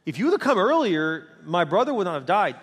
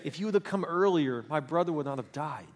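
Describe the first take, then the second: First: Arms-crossed reproach. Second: Retold tearful grief. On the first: Retold or imitated. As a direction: reproach him, stressing each half firmly. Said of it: "their arms are crossed saying". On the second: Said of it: "who in tears said".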